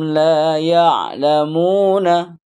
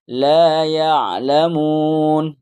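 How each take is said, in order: First: The last word ends with its full final vowel. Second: The last word ends cut short without its final vowel. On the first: "Dibaca semua" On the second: "nanti setelah Iqra ini"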